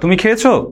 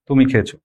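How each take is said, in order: First: It is said with questioning intonation. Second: It is said with plain statement intonation. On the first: It asks whether the person has eaten. "জিজ্ঞেস করেন এভাবে" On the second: The person has eaten. "খুব সহজে বলছে যে হ্যাঁ ছেলেটা খেয়েছে"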